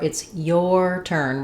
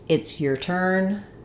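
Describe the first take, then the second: First: 'Your' has a full 'or' vowel, stressed. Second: 'Your' is reduced to an unstressed 'er' vowel. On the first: The word carries emphasis. "with stress, I will use the full or sound" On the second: The word is unimportant. "those letters O R get reduced to the er"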